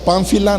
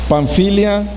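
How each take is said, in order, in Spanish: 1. La palabra termina en un sonido 'la' simple. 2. La palabra termina en un sonido 'lia'.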